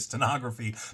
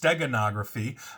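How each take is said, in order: First: The word has no hard g in the middle. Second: The word has a hard g in the middle. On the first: The speaker calls it wrong. "I always say stenography" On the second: The speaker calls it right. "but it's steganography"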